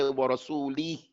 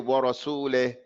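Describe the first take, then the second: First: The final vowel is a full, firm i. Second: The final vowel is weakened, drifting toward e. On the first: The speaker calls it right. "They don't say warasuli" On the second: The speaker calls it wrong. "the reeds don't give her her due rights. So they say warasule"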